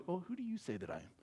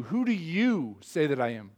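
First: Very soft, quick, timid asking; mock meek question. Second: Slow question with "you" stretched and emphasized; pointed, deliberate asking, weight on "you"; stress on YOU. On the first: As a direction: murmur it meekly, barely daring to ask. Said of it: "Jesus isn't meekly asking Peter alone". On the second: Shown as a demonstration. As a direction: hit "you" hard, then let the rest fall. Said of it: "emphasis on you".

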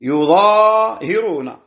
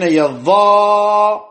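First: "يظاهرون" as yuZaahiruna, slow and raised, long aa; damma on ya. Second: "يظاهرون" as yaZZaaharuna, raised, with a long held aa; fatha ya, doubled Za. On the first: Teacher restating Asim's reading, "يظاهرون" slowly as yuZaahiruna. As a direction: open "يظاهرون" on yu, then Zaa and hi. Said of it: "بضم الياء وفتح الضاء". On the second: Teacher showing the variant, "يظاهرون" with a-vowelled ya and ha, doubled Za. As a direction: open on ya, double the Za, stretch the alif in "يظاهرون". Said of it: "بفتح الياء وتشديد الظاء وألف". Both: Shown as a demonstration.

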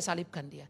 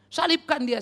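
First: Said in the usual way. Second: "Salibkan dia" shouted loud and high like a mob; crowd's cry. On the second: Retold or imitated. Preacher voices the crucifying crowd, shouting. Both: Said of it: "menyalibkan Yesus seperti dulu".

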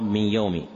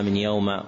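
First: "يوم" ending on an i vowel; correct kasra ending. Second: "يوم" ending on an a vowel; wrong fatha ending. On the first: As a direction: say "من يوم" as min yawmi. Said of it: "والصواب". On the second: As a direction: say "من يوم" as min yawma. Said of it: "المواضع التي وقع فيها". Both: Shown as a demonstration.

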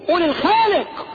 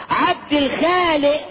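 First: High, insistent "الخالق" with full final q; "الخالق" corrected with a ringing qaf; correct pronunciation. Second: High, slow "الخالق" ending in a glottal stop; "الخالق" with no final q; colloquial mispronunciation. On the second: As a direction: draw out "الخالق" as "el-khaale'". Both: Shown as a demonstration. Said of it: "انتقف بمنطوقه الصحيح".

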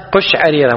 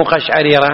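First: قشعريرة starting qush-; damma on ق. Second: قشعريرة starting qash-; mistaken fatha. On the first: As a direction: say قشعريرة as qush'arira. (قشعريرة بضم القاف) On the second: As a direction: say قشعريرة as qash'arira. (قشعريرة بفتح القاف خطأً) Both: Shown as a demonstration. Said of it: "مو قشعريرة".

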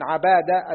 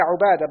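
First: عبادة as ʿabāda, short a, single b; fatha on ayn. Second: عبادة as ʿubāda, short u first; damma on ayn. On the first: Student reading names to his teacher, عبادة as ʿabāda. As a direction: open the ع of عبادة with a. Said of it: "فإنه بفتح العين وتخفيف الباء". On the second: Student reading names to his teacher, عبادة as ʿubāda. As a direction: round the ع of عبادة with u. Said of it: "عبادة بالضم". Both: Shown as a demonstration.

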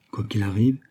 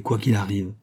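First: "Quoi qu'il arrive" with a rising, questioning end; questioning echo. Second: Said in the usual way. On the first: A narrator's reading. Echoes her words as a question.

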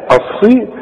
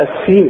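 First: "الصي" slow, with heavy ṣād; heavy emphatic sad. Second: "السين" with thin seen for ṣād; wrong light s. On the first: Shown as a demonstration. Teacher corrects the mistake, slow heavy ṣ in "الصي". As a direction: draw out a thick ṣ in "الصي". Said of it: "لا، الصي". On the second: Retold or imitated. Teacher warns against the mistake, thin s in "السين". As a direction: mimic the error, light s in "السين". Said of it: "مش تقول لي بقى".

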